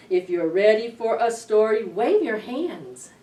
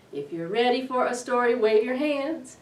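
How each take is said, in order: Both takes have the same delivery.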